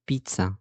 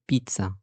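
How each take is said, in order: Both takes have the same delivery.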